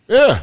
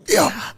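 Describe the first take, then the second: First: A sudden high, strained yeah; squeaky yeah. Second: High, thin, choked yeah; meme crying. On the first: Retelling to his wife the bombed show, high squeaky yeah. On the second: Mocking the DiCaprio crying meme, high choked yeah. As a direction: squeeze out a fake-crying yeah. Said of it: "Leonardo DiCaprio meme crying". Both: Retold or imitated.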